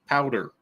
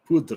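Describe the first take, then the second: First: The word sounds like 'powder'. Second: The word sounds like 'poo-dra'. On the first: This is how the locals pronounce it. "They call it powder" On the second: This is the speaker's own pronunciation. "pronounce it how I pronounce it"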